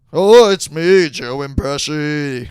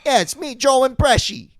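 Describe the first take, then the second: First: Loud opening then a lightly voiced mock Pesci; Joe Pesci impression. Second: High hammed-up Pesci voice; Joe Pesci impression. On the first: Doing a bit for a laughing friend, loud hammy Pesci. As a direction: bark the oh, then settle into bad Pesci. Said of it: "you should do this kind of stuff". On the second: Joking with a friend, a pitched-up mock Joe Pesci. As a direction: announce yourself as a bad Pesci. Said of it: "I never sound like the guy that I'm trying to do".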